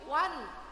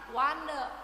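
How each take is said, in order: First: The n ends the syllable crisply, no vowel. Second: The n is followed by an extra vowel. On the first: The speaker calls it right. "nunnya dibaca jelas" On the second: The speaker calls it wrong. "bukan wane, bukan begitu"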